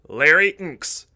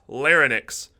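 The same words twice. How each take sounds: First: The word is said as lar-inks. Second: The word is said as lar-nix. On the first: The speaker calls it right. "that's larynx" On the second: The speaker calls it wrong. "not larynx. So don't say that or try to spell it because it's wrong"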